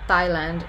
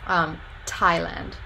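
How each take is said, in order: First: It begins with a tongue-on-teeth 't' and no puff of air. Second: It begins with a tongue-ridge 't' and a puff of air. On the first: "Thailand is without any aspiration" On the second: "So that is an alveolar voiceless stop, and it's aspirated, so you get that little puff of air"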